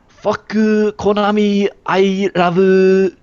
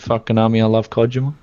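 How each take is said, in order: First: It is said in a put-on Japanese accent. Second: It is said in his ordinary accent.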